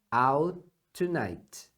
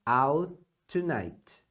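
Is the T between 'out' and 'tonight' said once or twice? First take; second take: once; once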